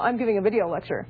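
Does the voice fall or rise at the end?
falls. The voice falls at the end. It is a statement. "distinguish a statement from a question"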